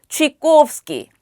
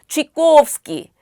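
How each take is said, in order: The two takes are said the same way.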